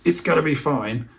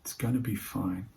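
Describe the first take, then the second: First: "It's gonna be fine" pushed higher and louder, tense; anxious reassurance. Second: Calm reassurance. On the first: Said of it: "If that comes across as". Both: Shown as a demonstration.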